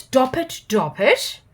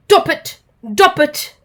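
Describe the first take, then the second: First: Said in the usual way. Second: Higher, louder silly trunk noise; elephant noise imitation. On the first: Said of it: "repeated the elephant". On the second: Dizzy asks the elephant a riddle, with elephant noise. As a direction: trumpet it like an elephant. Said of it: "large and grey and goes".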